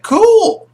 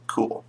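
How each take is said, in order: First: Very high, loud, stretched-out reaction; awkward fake approval. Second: Quiet low afterthought, after a long pause; deflated acceptance. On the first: Party reacts to priest's possessed son, awkward fake approval. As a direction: squeal it in uneasy approval. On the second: Acted. Party takes in priest's possessed son, deflated acceptance. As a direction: drop it softly, unimpressed. Same reaction repeated, deflated.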